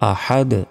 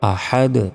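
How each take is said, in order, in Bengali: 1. শব্দটা শেষে খালি একটা ব্যঞ্জনে শেষ হয়। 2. শব্দটা শেষে খালি একটা ব্যঞ্জনে শেষ হয়।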